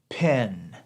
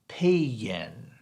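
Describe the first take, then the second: First: It is said in a Northern US accent. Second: It is said in a Southern US accent.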